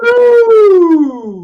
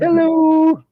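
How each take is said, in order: First: High, loud drawn-out hello; Seinfeld hello. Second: High drawn-out hello; Seinfeld hello. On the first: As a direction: sing out a big hello. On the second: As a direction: echo the hello playfully. Answering the hello bit. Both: Pretend.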